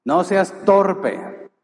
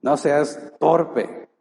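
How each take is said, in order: First: Slow, stressed "No seas torpe" with "seas" hit hard; firm rebuke. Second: Slow "No seas torpe", stress on "torpe"; a fatherly correction; firm loving rebuke. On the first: Preacher voicing Jesus' rebuke, slow and stressed. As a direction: spell out the rebuke slowly. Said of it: "¿qué le digamos?". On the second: Preacher telling the congregation, slow and firm. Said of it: "Es una muestra de amor". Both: Acted.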